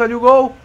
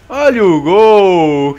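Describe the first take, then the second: First: Said in the usual way. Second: Loud, slow drawn-out goal call. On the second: Real, not acted. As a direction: stretch it out like a commentator. Calling out the goal.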